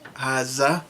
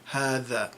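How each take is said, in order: First: The middle consonant is a z sound. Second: The middle consonant is a voiced th sound. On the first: This is the Levantine dialect form. "replace the dal with the z sound" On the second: This is the standard literary form. "in modern standard Arabic, you say"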